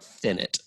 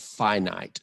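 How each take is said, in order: First: Both I vowels are short, as in it. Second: Both I vowels are long, as in eye. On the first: The speaker calls it wrong. "not finite" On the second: The speaker calls it right. "the word is finite"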